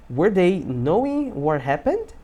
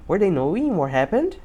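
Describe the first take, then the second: First: Slow, separated words rising on the end; slow model sentence. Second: Said in the usual way. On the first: Shown as a demonstration. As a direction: model the question slowly for learners. Teacher models slowly, then faster. (pergunta modelo, devagar, subindo no final)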